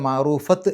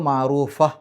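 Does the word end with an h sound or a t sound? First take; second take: t sound; h sound. First: The word ends with a t sound. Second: The word ends with a soft h sound. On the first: The speaker calls it wrong. "അല്ലാതെ മഅറൂഫത്ത് എന്നല്ല" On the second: The speaker calls it right. "ഹ് എന്നുള്ള രൂപത്തിലാണ്"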